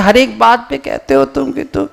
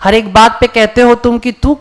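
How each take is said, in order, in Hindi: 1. इसे बढ़े हुए, चरम लहजे में पढ़ा जाता है। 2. इसे आम, रोज़मर्रा के लहजे में पढ़ा जाता है। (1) "दूसरा वाला हम सीधे एक्सट्रीम ये ले लेते हैं" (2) "आमतौर पर हम यही होते हैं"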